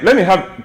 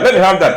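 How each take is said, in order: First: It is said softly and coaxingly. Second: It is said harshly, like shouting.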